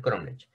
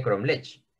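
First: "cromlech" stressed on the first syllable: CROMlech; stress on CROM. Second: "cromlech" stressed on the last syllable: cromLECH; wrong final stress. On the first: Teacher correcting students, "cromlech" stressed on CROM. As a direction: land on CROM in "cromlech", let LECH drop. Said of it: "Y lo correcto es cromlech". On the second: Teacher showing what it would not be, "cromlech" stressed on LECH. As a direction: push the beat of "cromlech" onto LECH. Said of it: "Porque no sería cromlech". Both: Shown as a demonstration.

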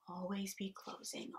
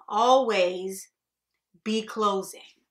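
First: Softly stated sales motto; quiet slogan. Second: Loud, slow, emphatic sales motto; hammered slogan. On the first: Boss teaching salesmen the motto, quietly. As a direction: say the motto quietly, holding back. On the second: Boss drilling the motto into salesmen, loud and forceful. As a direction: pound out each part of the motto. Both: Acted.

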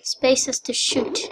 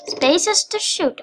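First: Said in the usual way. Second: "Spaces to shoot" higher and drawn out; emphatic repeat. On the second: Real, not acted. Player repeating the controls to viewers, emphatic. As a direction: stretch "Spaces to shoot" slowly, pitched up.

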